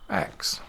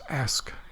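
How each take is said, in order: First: The s and k sounds are swapped: aks. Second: The s comes before the k: ask.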